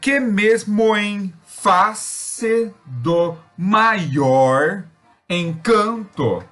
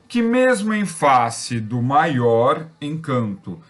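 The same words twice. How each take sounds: First: The line is spoken slowly, syllable by syllable. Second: The line is spoken quickly and rhythmically. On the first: The stressed syllables can be picked out. "quando a gente faz isso mais lento, a gente percebe as tônicas" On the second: The line takes on a rhythm. "Quando a gente fala rápido, isso gera um ritmo"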